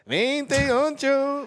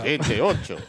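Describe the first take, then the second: First: It is said in a high-pitched voice. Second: It is said in a low voice.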